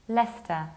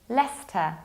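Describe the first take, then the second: First: The middle 'ce' syllable is skipped. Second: The middle 'ce' syllable is skipped.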